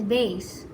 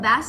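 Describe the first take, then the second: First: It is said with the instrument pronunciation. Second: It is said with the fish pronunciation. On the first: It names a low stringed instrument. "The other pronunciation is bass" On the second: It names a type of fish. "bass is a noun and is a type of fish"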